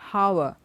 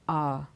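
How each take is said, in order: First: The word begins with an audible h sound. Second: The word begins with no h sound. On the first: The speaker calls it wrong. "It's not hour" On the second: The speaker calls it right. "it is R. it rhymes with the word O U R"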